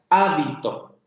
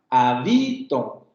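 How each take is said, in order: First: The stress is on the first syllable. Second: The stress is on the second syllable. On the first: It names the garment worn by monks. "yo pongo el acento en la primera sílaba" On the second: It means I live somewhere, present tense. "si yo le pongo el acento en la segunda sílaba"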